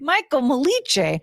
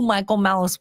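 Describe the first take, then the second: First: The surname ends with a 'ch' sound. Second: The surname ends with an 's' sound. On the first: The speaker calls it wrong. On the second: The speaker calls it right.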